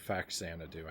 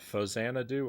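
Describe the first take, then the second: First: The middle consonant is a 'ks' sound. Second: The middle consonant is a 'z' sound. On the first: "the X isn't really supposed to make the Z sound" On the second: "I think it's Fozanadu since it's Famicom and Xanadu"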